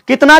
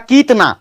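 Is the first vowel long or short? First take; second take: short; long. First: The first vowel is a short i. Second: The first vowel is a long ee. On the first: The speaker calls it right. "क में हर्षिकार होगा" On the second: The speaker calls it wrong. "मैं इसे दीर्घिकार लगाता हूं तो यह पढ़ाएगा"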